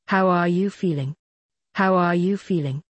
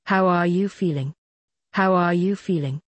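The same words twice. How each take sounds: The two takes are said the same way.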